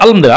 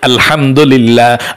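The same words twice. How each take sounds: First: It is recited quickly. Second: It is recited slowly.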